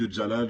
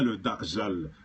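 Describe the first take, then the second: First: The name is pronounced as Jalal. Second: The name is pronounced as Dajjal. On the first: The speaker calls it wrong. "C'est beaucoup de fois je dis le Jalal" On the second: The speaker calls it right. "Et je dis bien le Dajjal"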